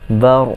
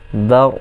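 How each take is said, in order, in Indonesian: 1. Konsonan terakhir membiarkan bunyi mengalir sebagian. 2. Konsonan terakhir membiarkan bunyi mengalir sebagian.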